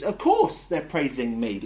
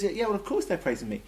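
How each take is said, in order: First: OF COURSE drawn out and loud; slow down and lean hard on "of course"; emphatic of course. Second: Offhand reply, pitched higher; Jesus. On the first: Jesus explaining children's praise, emphatic. Lecturer voices Jesus's implied reply. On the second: Jesus answering the indignant priests, matter-of-fact. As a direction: toss off "of course" quickly and high. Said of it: "Jesus says". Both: Acted.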